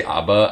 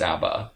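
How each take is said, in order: First: "abba" said AH-buh; ABBA with broad ah. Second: "abba" said AB-uh, as in cat; ABBA with short a. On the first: Giving own habitual pronunciation, "abba" as AH-buh. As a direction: say "abba" with an open ah up front. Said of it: "I always say abba". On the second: Conceding the correct pronunciation, "abba" as AB-uh. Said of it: "I know it's abba". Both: Shown as a demonstration.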